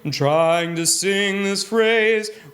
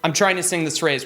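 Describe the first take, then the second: First: The vowels are sustained and flow smoothly together. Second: Hard consonants break the phrase into choppy bits. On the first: The speaker calls it right. "You can kind of hear the ah, eh" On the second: The speaker calls it wrong. "where you hear all the consonants kind of chopping up all the air"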